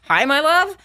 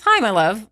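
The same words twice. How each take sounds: First: High, rising retort in imitation; acted-out unhinged hello; mock sweet greeting. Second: Lightly imitated loving hello; easy hello from an unsuspecting fiancé; fond greeting. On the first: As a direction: throw the greeting back high, dripping with sarcasm. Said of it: "talk about a movie scene". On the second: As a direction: greet a sweetheart casually, as if all is well. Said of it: "he called me my love".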